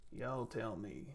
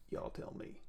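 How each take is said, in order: First: Drawn out slowly and quietly; slow repeat. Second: Said in the usual way. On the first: Real, not acted. Streamer asking chat again, slow and quiet.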